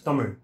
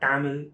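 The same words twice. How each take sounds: First: The final consonant is a special R-like sound. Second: The final consonant is a plain L sound. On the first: The speaker calls it right. "it's Tamil. So the R sound is not present in any of the other languages" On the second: The speaker calls it wrong. "It's not Tamil"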